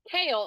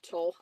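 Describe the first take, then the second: First: The name begins with a K sound. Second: The name begins with a T sound. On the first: The speaker calls it right. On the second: The speaker calls it wrong.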